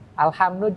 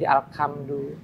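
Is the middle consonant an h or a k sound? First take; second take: h; k. First: The middle consonant is an h sound. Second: The middle consonant is a k sound. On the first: The speaker calls it right. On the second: The speaker calls it wrong.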